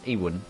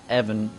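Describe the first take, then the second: First: The name is said with a W sound. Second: The name is said with a V sound. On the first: The speaker calls it right. "but it's Ewan" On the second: The speaker calls it wrong. "I I sadly said Evan"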